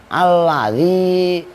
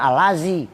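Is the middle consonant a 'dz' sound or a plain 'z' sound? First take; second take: dz; z. First: The middle consonant is a 'dz' sound. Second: The middle consonant is a plain 'z' sound. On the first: The speaker calls it right. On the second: The speaker calls it wrong. "jangan alazi"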